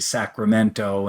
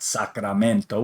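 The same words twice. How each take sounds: First: The name is said with English sounds. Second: The name is said with Spanish sounds. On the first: The speaker calls it right. "I know to say Sacramento" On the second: The speaker calls it wrong. "and not Sacramento"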